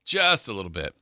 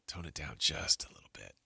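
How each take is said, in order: First: Said in the usual way. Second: Low, hushed quoted aside; soft, lowered voice; hushed self-restraint. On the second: Retold or imitated. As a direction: drop right down, as if discreetly reining someone in. Acts out telling friend to quiet.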